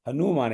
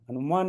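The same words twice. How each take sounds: First: The second vowel is long. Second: The second vowel is short. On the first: The speaker calls it right. "दीर्घ ऊ है" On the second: The speaker calls it wrong. "हनुमान नहीं है ये"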